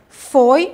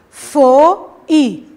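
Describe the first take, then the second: First: The vowels are joined in one syllable. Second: The vowels are split into two syllables. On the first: The speaker calls it right. "eu falo de uma vez, uma única sílaba" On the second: The speaker calls it wrong. "eu não falo foi"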